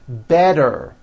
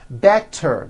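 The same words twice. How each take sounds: First: The middle consonant is a voiced D sound. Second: The middle consonant is a clear T sound.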